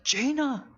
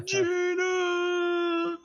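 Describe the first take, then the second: First: High-pitched cry, held back in volume; mock scream. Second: Very high, long-held cry of a name; hammed-up lovelorn scream, stretched right out; drawn-out mock scream. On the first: The game master voices a fighter screaming for Jaina, mock scream. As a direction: call the name out high, without full force. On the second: The game master voices a fighter crying out to Jaina, drawn-out mock scream. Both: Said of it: "he just screams out".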